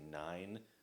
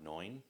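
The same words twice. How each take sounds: First: The word is said in a general American accent. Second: The word is said in a New York accent. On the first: "some people say nine" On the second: "up there it's more like nine"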